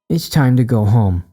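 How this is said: It is said in a mocking way.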